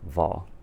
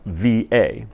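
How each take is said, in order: First: It is said as a single syllable word. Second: It is said as two separate letter names. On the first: The speaker calls it wrong. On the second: The speaker calls it right.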